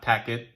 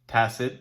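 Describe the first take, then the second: First: The middle consonant is a k sound. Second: The middle consonant is an s sound. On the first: The speaker calls it wrong. "not tacket" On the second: The speaker calls it right. "as I said, tacit"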